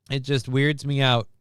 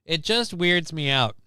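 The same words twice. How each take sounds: First: "weirds" stressed, at ordinary pace; "weirds" leaned on, the rest said plainly. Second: "just" leaned on, slow and drawn out; slow, puzzled "It just weirds me out" with the weight on "just"; stress on just. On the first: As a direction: punch the word "weirds". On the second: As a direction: hit "just" and let the line crawl. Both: Shown as a demonstration.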